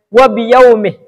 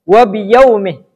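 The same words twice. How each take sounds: Both takes have the same delivery.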